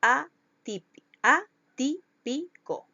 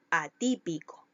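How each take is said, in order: First: "atip-, atípico" slowly broken into separate, higher syllables. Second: Said in the usual way. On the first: Shown as a demonstration. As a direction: sound out "atípico" slowly, piece by piece. ("atípico" lento, separado en sílabas) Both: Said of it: "Llevan el acento en la antepenúltima sílaba".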